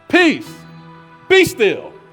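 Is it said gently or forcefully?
forcefully. It is said sharply, like an exasperated mom.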